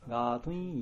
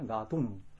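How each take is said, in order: First: The word ends in a -tuin sound. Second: The word ends in a plain -tun sound. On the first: The word is joined to the next word in recitation. "一緒に唱えますとガートゥイン、そのちょっと特別な発音出ます" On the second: The word stands on its own. "本当は発音、この個人的でこの言葉はガートゥン"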